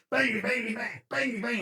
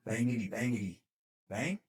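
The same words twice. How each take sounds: First: High-pitched, rapid-fire mock shots; cocky pretend gunfire. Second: Soft, unsure mock shots with a questioning last word; tentative pretend gunfire. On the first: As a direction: fire imaginary rounds with cocky gusto. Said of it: "he starts getting cocky". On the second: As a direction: try it out timidly, ending on a rise. Private tries his pretend gun, unsure.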